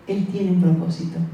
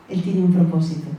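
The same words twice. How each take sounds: The two takes are said the same way.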